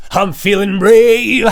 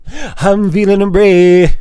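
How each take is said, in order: First: Said in the usual way. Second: Slow, drawn-out mock heroic brave; mock heroic declaration, drawn out; put-on brave voice. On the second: Shown as a demonstration. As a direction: ham up feeling brave, slowly. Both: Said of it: "Damn it".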